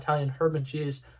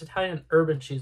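First: The h in herb is pronounced. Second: The h in herb is silent. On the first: "I pronounce the H" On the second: "before someone's like"

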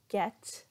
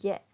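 First: The final T is fully released with a puff of air. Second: The final T is cut off in the throat, unreleased. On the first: The speaker calls it wrong. "so we're not saying get" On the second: The speaker calls it right. "but get"

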